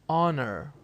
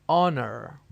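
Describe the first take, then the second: No difference in how they are said.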